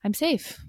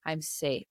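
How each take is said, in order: First: Higher, soft "I'm safe." with a hand on the heart; soothing self-talk. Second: Much softer, almost under the breath, "I'm safe."; softly telling yourself. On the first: Hand on heart, soothing herself after a hard day, higher and gentle. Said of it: "put a hand on our heart and just be like". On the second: Coach showing the listener how to calm themselves, much softer. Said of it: "just be like". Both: Shown as a demonstration.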